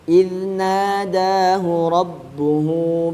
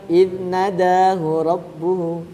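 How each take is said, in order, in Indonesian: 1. Vokal dalam 'nada' panjang. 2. Vokal dalam 'nada' pendek. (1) "Idnada, na panjang. Terus da panjang juga" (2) "Kan matnya dibaca pendek"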